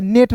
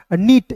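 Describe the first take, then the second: First: नेट with e in place of long ee; e vowel in नेट. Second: नीट with ee, not a short e sound; long ee in नीट. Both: Shown as a demonstration. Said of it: "इसे नेट नहीं पढ़ेंगे".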